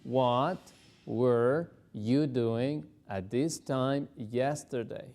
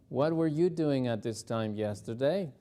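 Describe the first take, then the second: First: Drawn out word by word; very slow drill. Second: Said in the usual way. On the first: Shown as a demonstration. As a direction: go very slowly for home practice. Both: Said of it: "repetir muy despacito".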